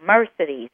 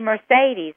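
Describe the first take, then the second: First: The stress is on the first syllable. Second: The stress is on a later syllable. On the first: The speaker calls it right. "that accent on the first syllable" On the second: The speaker calls it wrong. "people want to say Mercedes"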